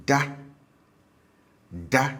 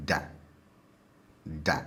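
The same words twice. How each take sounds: First: DA on a high, level tone; habitual high tone. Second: DA on a low tone; stative low tone. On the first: Teacher shows single-syllable habitual, DA high. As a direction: say DA pitched up, twice with a pause. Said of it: "habitual form tends to be high". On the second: Teacher shows single-syllable stative, DA low. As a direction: say DA pitched down, twice with a pause. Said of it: "stative form tends to be low". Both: Shown as a demonstration.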